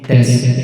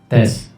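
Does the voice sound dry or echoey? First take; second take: echoey; dry. First: The voice has heavy, long reverb. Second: The voice is dry with no echo. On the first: "yan yung pinakasagad" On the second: "ito yung walang kahit anong effect"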